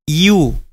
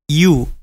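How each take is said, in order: First: It starts with an 'ee'-like glide. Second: It starts with an 'ee'-like glide.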